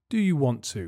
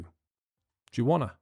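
First: Want to is said in full, two words. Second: Want to is contracted into wanna.

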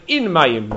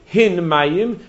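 First: The first word begins with a vowel. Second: The first word begins with an h sound. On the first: The speaker calls it wrong. "It would sound like In Mayim" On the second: The speaker calls it right. "they were unable to pronounce the letter Hey"

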